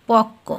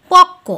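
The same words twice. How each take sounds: First: পক্ক said lower and softer, the doubled ক still kept; softer repeat. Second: পক্ক with a doubled, held ক, said louder; clear demo word. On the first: Teacher to students, repeating পক্ক softly. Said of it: "উচ্চারণটা হবে". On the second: Teacher to students, demonstrating পক্ক loud and clear. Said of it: "এটা কি হলো?". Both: Shown as a demonstration.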